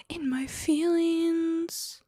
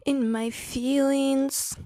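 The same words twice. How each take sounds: First: Slow breathy whisper; whispered echo. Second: Slow, stretched out and higher; in my feelings. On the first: Repeating her mood to the stream in a whisper. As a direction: whisper it back to yourself, slowly. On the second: Telling the chat she's moody, drawn out slowly. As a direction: drag out the word feelings, sulky. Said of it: "I'm just feeling kind of". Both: Real, not acted.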